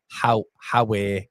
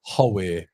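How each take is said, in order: First: "Howe" practised as ha-way; Sunderland "Howay". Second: "Howe" practised as ho-way; Newcastle "Howay". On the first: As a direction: open the first vowel of "Howe": HA-way. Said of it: "Sunderland is Howe". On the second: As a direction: round the first vowel of "Howe": HO-way. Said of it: "Newcastle is Howe". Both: Shown as a demonstration.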